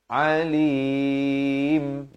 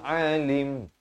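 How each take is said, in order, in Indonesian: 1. Vokal akhir dipanjangkan dua ketukan. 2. Vokal akhir dipotong dengan cepat. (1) "sekurang-kurang dua harakat" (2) "Jangan waqaf dengan ini bacaan yang salah"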